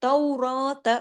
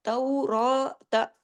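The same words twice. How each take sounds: First: Said in the usual way. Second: तौरात with रा held as long as an alif, very slow; stretched ra. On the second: Shown as a demonstration. Teacher showing long ra to students, slow stretched recitation. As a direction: draw out the रा in तौरात for one alif length. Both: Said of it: "अलिफ के बराबर".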